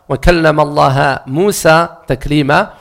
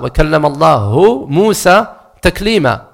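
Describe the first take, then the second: First: The word Allah ends with an a vowel. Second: The word Allah ends with a u vowel. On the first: Moses is the one who spoke to God. "si on met une Fatha et on lit le verset de cette manière" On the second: God is the one who spoke to Moses. "il y a Al-Dhamma"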